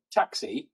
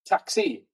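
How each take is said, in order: First: Said in the usual way. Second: "taxi" lifted high with a Welsh lilt, falling at the end; Welsh accent. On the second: Shown as a demonstration. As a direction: sing "taxi" up high in Welsh, then drop it. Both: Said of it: "we just say it with a Welsh accent".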